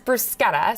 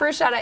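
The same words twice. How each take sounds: First: The middle consonant is a hard 'k' sound. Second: The middle consonant is a soft 'sh' sound. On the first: The speaker calls it right. "when you have C H, it's K, ... but it is bruschetta" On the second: The speaker calls it wrong. "It's not bruschetta"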